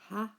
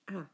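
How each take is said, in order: First: The vowel begins with a breathy h sound. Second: The vowel begins directly, with no h sound. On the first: "rough breathing on it, in which case you pronounce it ha" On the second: "smooth breathing on it, in which case you pronounce it a"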